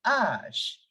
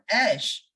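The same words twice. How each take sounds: First: "ash" with long open ah, aash; drawn-out "ash" with the a of father; correct French H. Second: "ash" with English short a, like cat; wrong French H. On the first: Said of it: "It is ash". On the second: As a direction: say "ash" flatly as the English word, ash with ae. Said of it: "It is not ash". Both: Shown as a demonstration.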